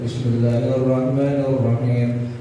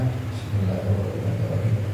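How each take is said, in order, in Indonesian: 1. Diucapkan nyaring, dengan suara yang jelas. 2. Diucapkan pelan, hampir berbisik.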